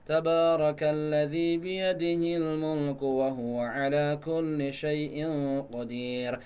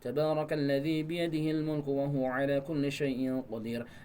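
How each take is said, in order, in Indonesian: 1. Dibaca dengan tempo yang jelas lebih lambat. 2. Dibaca dengan tempo lancar dan sedang. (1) "Kalau bacanya agak asal slow" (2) "Dengan bacaan yang enggak cepat. Saya contohkan seperti ini"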